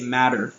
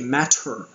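First: The middle consonant is a soft D-like flap. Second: The middle consonant is a crisp T sound. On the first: The speaker calls it right. "we say matter, like a D" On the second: The speaker calls it wrong. "Even though it's a T, we don't say matter"

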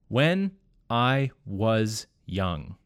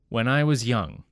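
First: The words are not smoothly linked together. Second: The words are smoothly linked together. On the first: The speaker calls it wrong. "in three different ways by changing the link" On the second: The speaker calls it right. "The correct answer is B"

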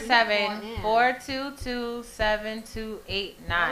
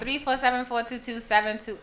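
First: The number is said at a slower pace. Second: The number is said at a quicker pace.

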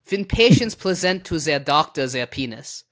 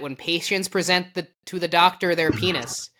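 First: It is read in a German accent. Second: It is read in a plain accent.

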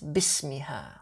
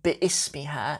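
First: Bi runs straight into smiha without a stop. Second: A glottal stop separates bi from ismiha. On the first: The speaker calls it right. "it has a hamzat wasl" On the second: The speaker calls it wrong. "students pronounce it as if it has a hamzat qata'a on it"

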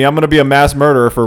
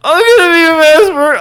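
First: It is said in his normal voice. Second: It is said in a put-on murderer voice.

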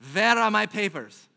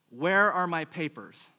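First: It is said in a put-on German accent. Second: It is said in the speaker's ordinary accent.

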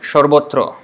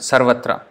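First: The vowels are 'o' sounds: sor-bo-tro. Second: The vowels are 'a' sounds: sar-va-tra. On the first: This is the Bengali pronunciation. "But in Bengali" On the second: This is the Sanskrit pronunciation. "sarvatra in Sanskrit"

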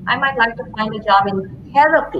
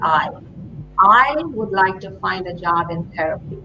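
First: The word 'therapy' is stressed. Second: The word 'I' is stressed. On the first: It points to what kind of work is wanted. "put the emphasis on therapy" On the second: It points to who owns the wish. "put the emphasis on the I"

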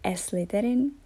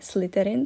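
First: An added e vowel comes before the sl cluster. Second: The word begins directly with the sl cluster. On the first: A Spanish speaker is saying it. "Španělé prostě říkají Slytherin" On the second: An English speaker is saying it. "v angličtině je Slytherin, samozřejmě SL"

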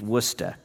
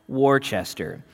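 First: The name is pronounced the local way. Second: The name is pronounced as it is spelled. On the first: The speaker is from the area. The speaker calls it right. "It's Worcester" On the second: The speaker is not from the area. The speaker calls it wrong. "looks like it should be pronounced Worcester"

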